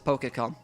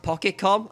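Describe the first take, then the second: First: The first syllable sounds like 'poke'. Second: The first syllable sounds like 'pock'. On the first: "you'll be damned if I'm not pronouncing it as Poke" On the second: "probably pronounced Pokécom, as in pocket"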